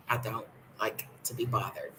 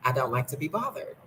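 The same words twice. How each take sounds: First: Muttered repeat. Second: Said in the usual way. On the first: Shown as a demonstration. Vlogger grumbles to viewers she wants to be left alone, quietly. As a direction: lower and much softer, grumbled.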